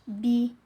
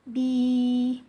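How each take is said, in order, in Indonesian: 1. Vokal ditahan satu ketukan pendek. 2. Vokal dipanjangkan dua ketukan. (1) "maka kita baca satu ketukan" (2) "maka bi dibaca panjang"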